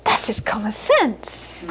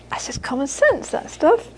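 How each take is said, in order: First: Slow, soft, offhand verdict; a hint of a shrugging old mum, drawn out; matter-of-fact mother. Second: Softer, rising to a high end; lightly voiced mother. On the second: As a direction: toss it off, climbing at the end. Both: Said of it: "She'd say".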